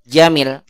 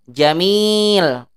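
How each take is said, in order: First: The vowel in the last syllable is short. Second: The vowel in the last syllable is long. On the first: Something has become beautiful. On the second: Something is beautiful.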